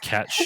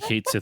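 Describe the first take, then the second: First: It sounds like 'Cat She', with a sh sound. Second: It sounds like 'Kate Sith', with an s sound. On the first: The speaker calls it right. "but it's Cat She" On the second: The speaker calls it wrong. "I say Kate Sith as well"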